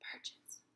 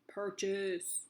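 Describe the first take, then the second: First: The word is whispered. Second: The word is said in a deep growly voice. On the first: "Whisper it" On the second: "monster voice it"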